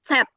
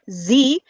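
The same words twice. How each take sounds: First: The letter begins with a ts sound. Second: The letter begins with a plain z sound. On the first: The speaker calls it right. "but Z. It's like you are saying T and S together" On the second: The speaker calls it wrong. "you don't say Z or Z"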